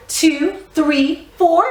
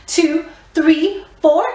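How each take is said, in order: Both takes have the same delivery.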